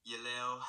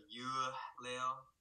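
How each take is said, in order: First: "Yeleo" with a short e vowel after the Y, slurred and laid-back; central pronunciation. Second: "You leo" with a full "you" vowel after the Y; southern Vietnamese take on "You leo"; southern pronunciation. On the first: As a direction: central Vietnamese take on "Yeleo". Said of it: "they would say". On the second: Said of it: "instead of". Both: Shown as a demonstration.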